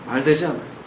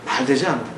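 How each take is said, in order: Both takes have the same delivery.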